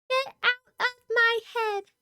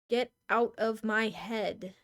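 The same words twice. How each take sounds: First: It is said in a put-on Sayori voice. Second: It is said in the speaker's natural voice.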